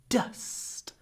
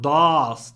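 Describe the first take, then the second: First: The vowel is short and clipped. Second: The vowel is big and drawn out. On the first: The speaker calls it right. "Really short. It's clipped before the unvoiced s" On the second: The speaker calls it wrong. "your vowel, your uh, is not too big. It's not dust"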